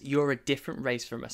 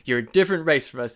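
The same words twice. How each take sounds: First: It is said in the speaker's natural voice. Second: It is said in the coach guy's voice.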